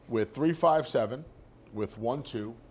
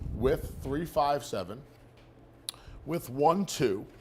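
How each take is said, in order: First: It is read at a quick pace. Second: It is read at a slower pace.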